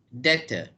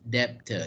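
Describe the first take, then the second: First: The b sound is silent. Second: The b sound is pronounced. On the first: The speaker calls it right. "the correct pronunciation of this word is yeah D E R" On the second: The speaker calls it wrong. "not debtor"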